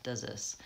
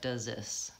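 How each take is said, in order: First: The th sound merges into the z sound. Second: The same.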